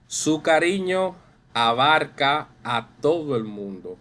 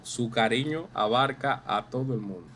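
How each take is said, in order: First: Lively read-aloud of a classroom example; expressive reading. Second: Said in the usual way. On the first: Shown as a demonstration. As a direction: read out a bit louder and higher. Teacher reads example sentence expressively.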